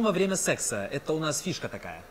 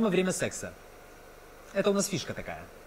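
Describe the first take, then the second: First: It runs on with no pause after 'секса'. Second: There is a long pause after 'секса'. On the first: The speaker calls it wrong. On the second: The speaker calls it right.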